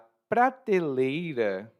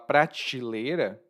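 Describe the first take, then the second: First: The word is said in a careful, full form. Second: The word is said in a casual, everyday form.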